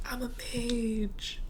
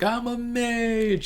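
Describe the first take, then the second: First: Tiny, high, drawn-out squeal; excited exclamation held down very soft; hushed mock cheer. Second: High, drawn-out excited yell; high-pitched triumphant cry, long on the last word; mock scream. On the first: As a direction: whoop softly in a high little voice. Repeats the scream after being shushed. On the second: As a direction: imitate a gleeful scream, stretching it out. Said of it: "he was just screaming".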